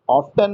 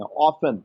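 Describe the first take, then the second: First: "ऑफ्टन" with an audible t; T pronounced. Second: "ऑफन" with the t dropped; silent t. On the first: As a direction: sound the t after the f in "ऑफ्टन". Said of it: "ऑफ्टन नहीं पढ़ते हैं". ("ऑफ्टन" में त बोलकर) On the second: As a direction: leave out the t in "ऑफन". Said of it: "त का उच्चारण नहीं होता". ("ऑफन" में त चुप रखकर) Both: Shown as a demonstration.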